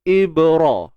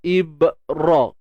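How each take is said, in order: First: The b is released with a light bounce. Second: The b is cut off with the voice stopped. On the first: The speaker calls it right. "Praktikal dia ibra, ib. Kita jangan tahan, jangan putuskan" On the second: The speaker calls it wrong. "Kita putuskan suara tu"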